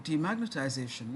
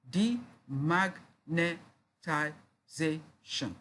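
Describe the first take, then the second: First: Said in the usual way. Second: "demagnetization" very slowly, a gap after each syllable. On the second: Shown as a demonstration. Teacher counting out six syllables, syllable by syllable. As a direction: chop "demagnetization" into six separate beats. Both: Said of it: "break the words listed below into syllables".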